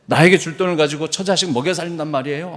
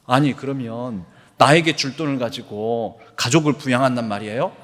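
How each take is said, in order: First: A louder, more heated repeat of the protest; angry protest. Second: A beggar's mild indignant retort; protest, only lightly heated; angry protest. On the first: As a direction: push the indignation harder, rising at the end. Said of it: "하면서 막 화를 나-, 내더라는". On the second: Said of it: "막 화를 내면서". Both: Retold or imitated.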